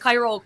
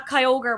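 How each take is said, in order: First: The name contains a 'rogue' sound. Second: The name has no 'rogue' sound in it. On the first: The speaker calls it wrong. "I thought there was like a rogue or in it" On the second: The speaker calls it right. "they were actually completely right"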